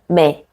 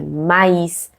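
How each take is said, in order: First: The a and i merge into one vowel. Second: The a and i are sounded separately. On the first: The speaker calls it wrong. "Não é mé" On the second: The speaker calls it right. "é maíz. Você vê que eu mantenho o som"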